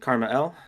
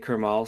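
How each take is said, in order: First: The name is said as Karma L. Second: The name is said as Kermal. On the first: This is the intended pronunciation. "That is how it's pronounced" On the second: This is how other people say it. "I've heard people say Kermal"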